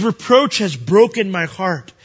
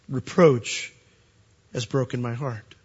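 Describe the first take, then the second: First: Loud slow preaching. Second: Heartbroken. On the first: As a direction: proclaim "Reproach has broken my heart" louder and slower, declaring it. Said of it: "these are the Lord's thoughts himself". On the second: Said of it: "the Lord's thoughts himself". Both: Acted.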